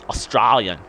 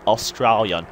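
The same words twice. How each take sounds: First: AUSTRALIAN said the Aussie way, broad "os-STRAL-yan"; broad Australian accent. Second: Said in the usual way. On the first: Shown as a demonstration. Vlogger showing how Australians say it, broad Australian accent on "Australian". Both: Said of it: "as we say".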